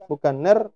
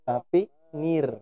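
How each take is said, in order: First: The vowel is slanted toward an e sound. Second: The vowel is a clear, full i sound. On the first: The speaker calls it wrong. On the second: The speaker calls it right.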